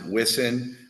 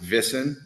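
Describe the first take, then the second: First: The word begins with a W sound. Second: The word begins with a V sound. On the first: This is how English speakers say it. "we would pronounce it" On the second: This is how the locals say it. "they pronounce it Wissen as their W's, their V's"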